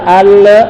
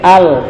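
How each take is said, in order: First: The final l has a bouncing release. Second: The final l is released smoothly. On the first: The speaker calls it wrong. "jangan mantul, jangan baca al" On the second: The speaker calls it right. "al dilepas"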